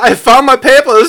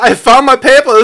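First: It is said in a put-on German accent. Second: The same.

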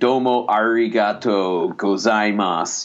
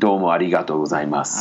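First: It has an American accent with a hard R. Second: It has a native accent with a light tapped R. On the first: The speaker calls it wrong. "an American accent" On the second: The speaker calls it right. "a real pronunciation would be like"

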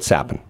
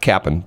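First: The name begins with an S sound. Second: The name begins with a K sound. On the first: The speaker calls it right. "but Sappen" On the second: The speaker calls it wrong. "Not Cappen"

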